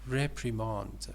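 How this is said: It is said with a British accent. "British pronunciation"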